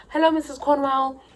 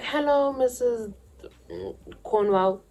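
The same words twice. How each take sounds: First: Higher, put-on polite voice; sweet innocent greeting. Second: High, polite little voice; sweet innocent greeting. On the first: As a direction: sound like a good girl at the gate. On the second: Retold or imitated. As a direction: play the innocent girl at the door. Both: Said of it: "Let's just say her name's that".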